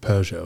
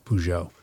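First: The stress is on the first syllable. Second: The stress is on the last syllable. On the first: This is how it is said in England. "England puts the emphasis on the first syllable" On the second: This is how the speakers themselves say it. "we call it Peugeot"

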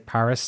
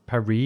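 First: Paris is pronounced with an English pronunciation. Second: Paris is pronounced with a French pronunciation. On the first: The speaker calls it right. "I'd say Paris" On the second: The speaker calls it wrong. "not Paris, unless I was, you know, Speaking French"

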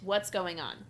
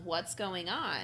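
First: It ends with a falling, flat tune. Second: It ends with a rising, questioning tune.

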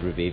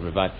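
First: The word is given an Italian-sounding pronunciation. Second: The word is given a plain English pronunciation. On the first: "It's a bit Italian-y, so I said Revive" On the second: "instead of Revive"

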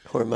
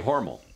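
First: The name does not rhyme with normal. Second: The name rhymes with the word normal. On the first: This is how the advertising says it, sounding fancier. "if you listen to their advertising" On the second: This is how locals say it. "I say Hormel, rhymes with normal"

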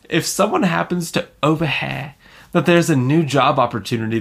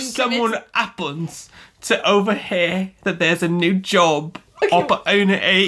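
First: It is read in the speaker's usual accent. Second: It is read in a put-on British accent.

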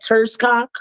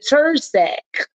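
First: The name is said with a k sound. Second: The name is said without a k sound. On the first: "So what's that" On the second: "I believe that's how you say it"

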